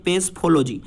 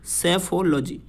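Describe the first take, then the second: First: पेसफोलॉजी with a p sound before the s: pes-pholo-ji; the mistaken form: पेसफोलॉजी, starting pes-; wrong pronunciation. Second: सेफोलॉजी starting with plain s: se-pholo-ji, no p before it; the right form: सेफोलॉजी, se-pholo-ji; correct pronunciation. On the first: Teacher shows students the common wrong reading, pes-pholo-ji. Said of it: "ये गलत pronunciation है". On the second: Teacher gives students the correct reading, se-pholo-ji. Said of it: "सही pronunciation होता है वो होता है दोस्तों सेफोलॉजी". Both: Shown as a demonstration.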